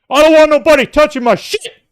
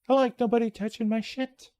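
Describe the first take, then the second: First: It is said aggressively with heavy emphasis. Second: It is said calmly and nicely.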